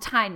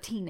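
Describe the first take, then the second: First: The name is said with a plain English pronunciation. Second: The name is said with a foreign-sounding pronunciation. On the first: The speaker calls it right. "we'll call him Tine now" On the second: The speaker calls it wrong. "I was, like, being foreign with it"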